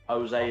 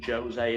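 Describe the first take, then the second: First: It is pronounced the Spanish way. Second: It is pronounced the Portuguese way. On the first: "Jose in Spain" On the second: "Jose in Portugal"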